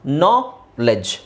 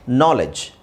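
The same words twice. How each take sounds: First: ನಾಲೆಡ್ಜ್ in two slow separate parts, d silent; split into syllables. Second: Said in the usual way. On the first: Shown as a demonstration. Teacher showing the silent D, ನಾಲೆಡ್ಜ್ slowly syllable by syllable. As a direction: break ನಾಲೆಡ್ಜ್ after the first syllable, pause, then "lej". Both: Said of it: "ಡಿ silent ಮಾಡಬೇಕು".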